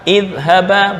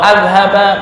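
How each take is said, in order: First: The word begins with an i vowel. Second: The word begins with an a vowel. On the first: The speaker calls it right. "hamzah dibaca kasroh" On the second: The speaker calls it wrong.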